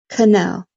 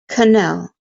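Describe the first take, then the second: The two takes are said the same way.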